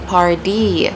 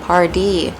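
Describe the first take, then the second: First: The middle t sounds like a soft d. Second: The same.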